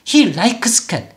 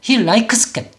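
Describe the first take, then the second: No difference in how they are said.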